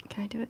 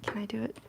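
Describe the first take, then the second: First: Said in the usual way. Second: Soft unvoiced self-question; whispering. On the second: Real, not acted. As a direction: whisper it to yourself.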